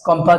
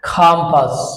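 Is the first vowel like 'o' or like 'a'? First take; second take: o; a. First: The first vowel sounds like 'o'. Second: The first vowel sounds like 'a'. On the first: The speaker calls it wrong. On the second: The speaker calls it right.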